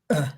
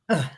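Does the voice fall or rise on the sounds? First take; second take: fall; fall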